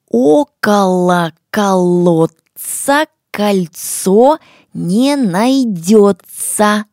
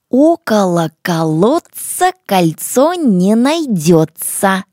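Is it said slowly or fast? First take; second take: slowly; fast. First: It is said slowly and clearly. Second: It is said a little faster.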